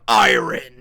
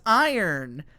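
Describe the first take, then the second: First: It is said closer to its spelling. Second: It is said far from its spelling. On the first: "It sounds like powerful and strong, like iron" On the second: "everyone's like, no, it's iron"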